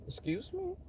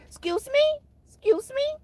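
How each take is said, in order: First: Soft, rising, taken-aback question; mock polite. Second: Very high, squeaky rising question; hammed-up offended squeal, twice; Tracy. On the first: Questioning a coworker's tone, softly offended. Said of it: "So I'd be like". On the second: Imitating how Tracy would say it, high and offended. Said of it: "like Tracy would say".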